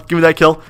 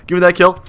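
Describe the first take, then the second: No difference in how they are said.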